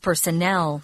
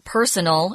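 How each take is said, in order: First: The stress is on the last syllable. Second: The stress is on the first syllable. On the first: The speaker calls it right. "notice that the accent is on personnel" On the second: The speaker calls it wrong. "It's not personal"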